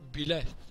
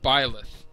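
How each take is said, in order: First: The name is said with the force removed. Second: The name is said with full force. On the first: It sounds French. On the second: It sounds English.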